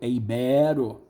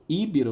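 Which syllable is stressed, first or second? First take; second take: second; first. First: The stress is on the second syllable. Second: The stress is on the first syllable. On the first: The speaker calls it right. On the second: The speaker calls it wrong. "Muita gente fala íbero"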